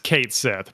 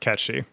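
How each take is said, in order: First: The name is said as two words, Kate Sith. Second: The name is said as one word, Ketchy. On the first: This is how most people say it. The speaker calls it wrong. "everyone who's not a Turbo nerd says Cait Sith" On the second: This is the Scottish, original way to say it. The speaker calls it right. "it's actually pronounced Ketchy"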